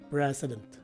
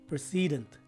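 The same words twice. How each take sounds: First: The stress falls on the first syllable. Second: The stress falls on a later syllable. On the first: The speaker calls it right. "the stress is in the first syllable" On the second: The speaker calls it wrong. "often mispronounce this word as precedent"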